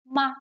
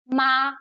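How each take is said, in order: First: The syllable is light with a slight drop. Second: The pitch stays high, short and level. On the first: It can be a question particle. "just a really light drop" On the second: It can mean mother. "so it's high, it's short and straight"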